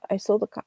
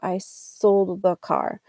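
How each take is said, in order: First: The d and th merge into a quick sola. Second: The d and th sounds are both clearly pronounced. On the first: The speaker calls it wrong. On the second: The speaker calls it right.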